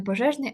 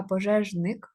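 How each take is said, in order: First: Пожежний with the adjective ending -ний; rejected word form. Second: Пожежник with the noun ending -ник; corrected word form. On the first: Teacher showing pupils the wrong job word, пожежний ending in -ний. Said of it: "не пожежний". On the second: Teacher correcting the job word to пожежник, ending in -ник. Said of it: "а пожежник". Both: Shown as a demonstration.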